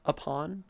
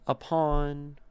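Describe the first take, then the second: First: "Upon" with PON stressed. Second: "Upon" with PON loud and stressed. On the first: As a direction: say it as an iamb. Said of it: "Upon is an excellent iamb". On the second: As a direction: lean on the second syllable. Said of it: "Are all iambs". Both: Shown as a demonstration.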